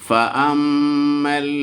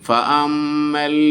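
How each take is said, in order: The two takes are said the same way.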